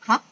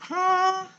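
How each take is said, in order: First: Short "Hah?" rising like a startled question; second tone. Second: "Hah?" held high and level; first tone. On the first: Teacher contrasting with tone one, rising "Hah?". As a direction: swoop "Hah?" upward quickly. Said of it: "dia pasti nada dua". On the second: Teacher showing what tone two is not, high level "Hah?". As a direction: stretch "Hah?" on one high, unchanging pitch. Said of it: "Bukan so-, nada satu". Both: Shown as a demonstration.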